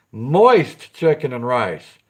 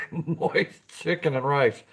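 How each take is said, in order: First: Slow, heavy stress on moist; drawn-out moist. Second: Stifled giggle through the words; slow, trying not to laugh at moist; giggling. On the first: Stretching moist for his viewers, very slow. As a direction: savour moist slowly, dragging it out. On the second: Laughing at the word on his own stream. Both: Real, not acted. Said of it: "I can't even say the word without giggling".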